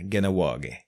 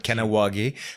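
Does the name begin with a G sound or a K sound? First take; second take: G sound; K sound. First: The name begins with a hard G sound. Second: The name begins with a hard K sound. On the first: The speaker calls it right. "On devrait dire Ganawagé" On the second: The speaker calls it wrong. "C'est comme Kanawagé"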